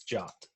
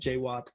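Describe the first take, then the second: First: It is said as 'jot', without a w sound. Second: It is said as 'jwot', with a w sound. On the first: This is the official way of saying it. "the official pronunciation of J W T is J O T" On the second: This is the speaker's habitual way of saying it. "I always call it J WOT"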